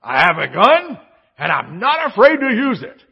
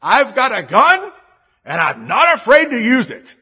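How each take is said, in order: First: Loud, high mock tough-guy threat; hammed-up bold warning; bold declaration. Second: Loud, high mock tough-guy threat; hammed-up dad shouting a warning; dad's gun threat. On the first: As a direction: boom it out like a proud dad. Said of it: "the bold declaration". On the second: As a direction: bellow it like a dad defending the house. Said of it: "And he says this".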